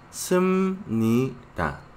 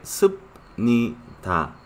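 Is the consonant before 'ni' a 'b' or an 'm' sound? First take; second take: m; b. First: The consonant before 'ni' sounds like 'm'. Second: The consonant before 'ni' sounds like 'b'. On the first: This is how the word is actually spoken. The speaker calls it right. "pero se pronuncia sum-ni-ta" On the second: This is how the word is written. The speaker calls it wrong. "se escribe sub-ni-ta"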